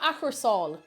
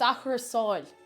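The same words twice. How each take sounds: First: The ending is a plain r sound. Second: The ending slides into a sh-like sound. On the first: The speaker calls it wrong. "It's not achursáil" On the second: The speaker calls it right. "It's achursáil"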